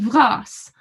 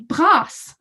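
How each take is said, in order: First: The word begins with a V sound. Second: The word begins with a B sound. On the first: "she uses the mutation" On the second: "with no mutation"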